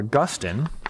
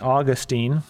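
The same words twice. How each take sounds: First: The name is said the scholarly-sounding way. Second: The name is said the common everyday way.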